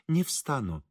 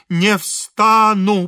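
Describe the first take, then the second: First: Quiet refusal. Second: Loud, high, very slow refusal; stubborn refusal. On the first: Priest quietly refuses to rise. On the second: Kneeling priest refusing the engineer once more, stubborn. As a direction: stretch out each syllable stubbornly. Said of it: "повторил отец Фёдор". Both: A narrator's reading.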